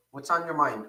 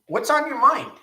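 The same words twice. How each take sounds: First: Said in the usual way. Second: Much higher and louder, thrown out to the chat; called-out question. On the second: Real, not acted. Host calling out to his live viewers, loud and high. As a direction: call it out big to the whole room.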